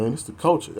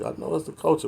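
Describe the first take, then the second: First: Higher, whiny mock excuse; mocking old saggers. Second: Said in the usual way. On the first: Mimicking old men who sag defending it, higher mocking whine. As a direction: parrot the lame excuse back at them. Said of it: "talking about".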